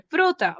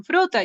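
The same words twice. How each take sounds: First: Much higher fruta, echoing the teacher; child echoing fruta back. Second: Much higher, louder fruta, prompting tone; teacher prompting the word fruta. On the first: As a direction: parrot fruta like a small child. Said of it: "y el niño repite". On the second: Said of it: "A veces las profesoras dicen". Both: Retold or imitated.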